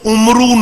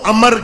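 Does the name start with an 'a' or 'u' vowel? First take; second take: u; a. First: It starts with 'u' and ends in 'oo'. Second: It starts with 'a' and has no final vowel. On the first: The speaker calls it wrong. "उसको उमरू नहीं पढ़ते" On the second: The speaker calls it right. "फिर उसको अमर कहना"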